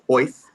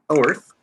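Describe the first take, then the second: First: The name is said without an r sound. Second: The name is said with an r sound.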